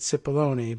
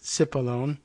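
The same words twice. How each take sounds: First: The name is said the New York way. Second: The name is said the Kentucky way.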